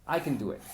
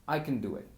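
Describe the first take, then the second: The two takes are said the same way.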